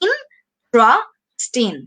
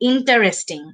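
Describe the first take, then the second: First: The word has three syllables, dropping the 'ter'. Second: The word has four syllables, keeping the 'ter'. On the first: The speaker calls it right. "এটাকে সঠিকভাবে আমরা এভাবে উচ্চারণ করব" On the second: The speaker calls it wrong. "অনেকেই আমরা ভুলে এভাবে প্রোনাউন্স করে ফেলি"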